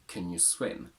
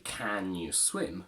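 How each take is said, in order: First: 'Can' is reduced with a schwa vowel. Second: 'Can' is said with a full vowel. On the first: The speaker calls it right. "We say" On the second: The speaker calls it wrong. "We don't say"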